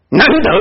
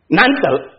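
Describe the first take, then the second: First: It is said in a pleased, approving way. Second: It is said in a discouraged, daunted way. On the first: It is rare and commendable. "好，哈哈，你有这个心" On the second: It is too hard to obtain. "得不到了，太难"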